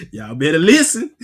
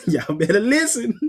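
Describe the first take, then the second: First: Laughing through it, lower; laughing warning. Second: Said in the usual way. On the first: Real, not acted. Preacher laughing as he warns the listeners. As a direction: chuckle out the warning.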